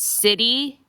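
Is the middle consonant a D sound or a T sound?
D. The middle consonant is a soft D sound. "we say it with a D"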